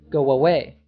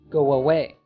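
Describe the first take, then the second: First: A W sound links the two words together. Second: The same.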